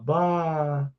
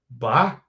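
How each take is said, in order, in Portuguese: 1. Soa consternada, como se reagisse a uma má notícia. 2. Soa duvidosa, como se estivesse fazendo uma pergunta. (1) "Se acontece alguma coisa ruim, a gente fala bah nesse tom de voz" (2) "se a gente é, tem alguma dúvida, a gente fala bah"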